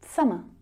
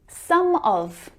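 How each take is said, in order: First: The word 'of' shrinks to a schwa. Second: The word 'of' is pronounced in full.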